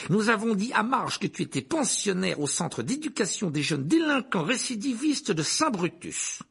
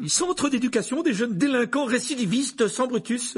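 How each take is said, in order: First: High, emphatic proclamation; domineering uncle. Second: Very high, loud exclamation; panicked outcry. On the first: Acted. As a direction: announce it imperiously. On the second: A narrator's reading. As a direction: cry out the correction in alarm. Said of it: "s'écria l'oncle Vernon".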